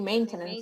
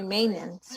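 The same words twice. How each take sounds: First: The T sound in the middle is pronounced. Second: The T sound in the middle is dropped. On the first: "I don't say maintenance" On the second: "we don't pronounce the T"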